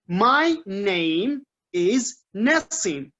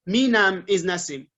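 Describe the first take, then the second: First: 'My name' is said as two clear words. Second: 'My name' is run together into 'minam'. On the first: The speaker calls it right. "I say, um, my name is Nassim" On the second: The speaker calls it wrong. "I don't say Minam is Nassim"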